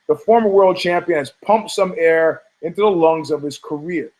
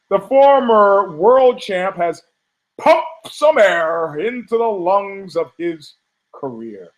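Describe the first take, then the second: First: It is read plainly, without special emphasis. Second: It is read with heavy, pointed emphasis.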